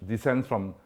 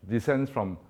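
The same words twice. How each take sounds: Both takes have the same delivery.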